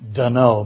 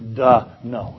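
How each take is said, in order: First: The stress is on the second syllable. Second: The stress is on the first syllable. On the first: It means I don't know. The speaker calls it wrong. "Some of you will think, duh, no means don't know" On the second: It means obviously no. The speaker calls it right. "You have to emphasize the first syllable"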